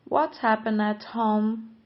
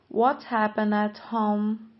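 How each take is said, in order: The two takes are said the same way.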